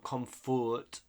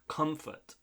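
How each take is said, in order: First: It is said with a Spanish-style pronunciation. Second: It is said with an English pronunciation. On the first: The speaker calls it wrong. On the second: The speaker calls it right.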